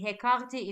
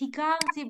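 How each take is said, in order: First: The first vowel sounds like 'eh'. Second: The first vowel sounds like 'ee'. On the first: It is the popular colloquial form. The speaker calls it wrong. "many native speakers say" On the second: It is the officially correct form. The speaker calls it right. "The correct is"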